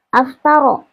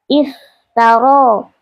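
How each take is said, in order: First: The word begins with an a vowel. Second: The word begins with an i vowel. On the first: The speaker calls it wrong. "laisa aftaro" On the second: The speaker calls it right. "hamzahnya dibaca kasroh"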